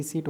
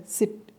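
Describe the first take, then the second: First: सीट said with a long ee vowel. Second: सिट said with a short clipped i vowel. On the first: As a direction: stretch the ee in सीट. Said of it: "वो वाला सीट अलग होता है". (लंबी ई के साथ सीट) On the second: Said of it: "लेकिन ये सिट". (छोटी इ के साथ सिट) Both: Shown as a demonstration.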